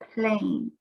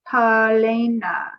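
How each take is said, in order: First: The p and l blend with no vowel. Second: Extra vowels split the p, l and n. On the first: The speaker calls it right. "it's plane" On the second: The speaker calls it wrong. "because then we would have palena. That's not the word"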